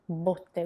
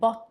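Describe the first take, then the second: First: The O vowel is closed. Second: The O vowel is open. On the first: It means a barrel. "with the closed O" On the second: It means beatings or hits. "on the other hand, means beatings"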